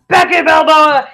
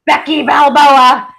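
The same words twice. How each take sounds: First: Slow, loud ring-announcer style; announcer call. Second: Slow, loud boxing-announcer call; hammed-up announcer. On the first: Pretend. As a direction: call the name into the arena. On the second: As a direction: announce her like a boxer. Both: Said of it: "repeating the nickname".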